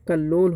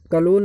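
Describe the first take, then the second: First: कल्लोल said kallol with a held double l; teacher gives the right kallol with a long l; correct form. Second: कलोल said kalol with a single l; teacher flags the wrong kalol, single l; wrong form. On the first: Teacher correcting students, kallol with double l. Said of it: "होता है". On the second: Teacher warning students against kalol, single l. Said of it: "नहीं होता दोस्तों". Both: Shown as a demonstration.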